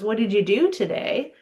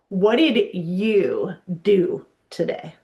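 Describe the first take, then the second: First: It is said in a neutral tone. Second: It is said in a condescending tone.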